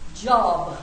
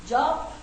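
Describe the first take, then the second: First: The word ends with a b sound. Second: The word ends with a p sound. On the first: The speaker calls it right. "That's J O B, not J O P" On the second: The speaker calls it wrong. "A lot of people say job"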